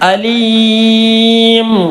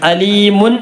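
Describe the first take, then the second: First: The word ends on a bare, held m sound. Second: The word ends with an added -un ending. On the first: The reciter stops at the end of the verse. "നിർത്തിയപ്പോൾ അലീം" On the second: This is the full written form without stopping. "അലീമുൻ എന്നാണുള്ളത്"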